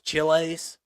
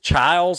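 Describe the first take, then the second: First: The name is said with a Spanish-style twang. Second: The name is said plainly, like 'Childs'. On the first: This is how the speaker assumed it was said. The speaker calls it wrong. "I thought it was Chiles... put a little Mexican twang on it" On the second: This is how the player's own team says it. The speaker calls it right. "they pronounce it Childs"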